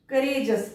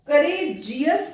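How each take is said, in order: First: The ending is said as one syllable, 'jus'. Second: The ending is said as two syllables, 'ji-yus'. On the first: The speaker calls it right. "करेजस पढ़ना है" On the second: The speaker calls it wrong. "करेजियस पढ़ते हैं"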